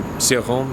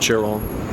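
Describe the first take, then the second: First: The name is said with a French pronunciation. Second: The name is said with a Romanian pronunciation. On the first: It follows how people in France say it. "the proper pronunciation would be Cioran" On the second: It follows the name's Romanian origin. "they also say Chiron, you know, because uh, he's Romanian"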